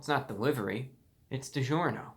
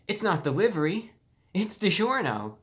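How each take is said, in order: First: It is said in a flat, neutral tone. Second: It is said in a very happy, delighted tone. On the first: "like a neutral" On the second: "in a very happy tone, like this is the best day of your life"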